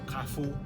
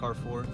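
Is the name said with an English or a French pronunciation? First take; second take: French; English. First: The name is said with a French pronunciation. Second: The name is said with an English pronunciation.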